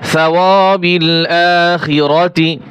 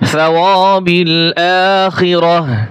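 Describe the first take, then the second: First: The last word ends with a 'ti' sound. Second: The last word ends with an 'h' sound. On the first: The reading continues without stopping. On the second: The reader stops at this word.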